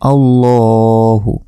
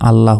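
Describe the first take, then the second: First: The word ends with a final u vowel. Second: The word ends without a final vowel. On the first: The speaker calls it right. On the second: The speaker calls it wrong.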